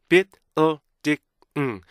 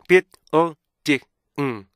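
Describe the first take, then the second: The two takes are said the same way.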